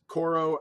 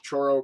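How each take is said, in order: First: The name begins with a hard k sound. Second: The name begins with a ch sound. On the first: "I've heard people pronounce this Koro and Choro" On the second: "I was always told that C H said sounded like ch"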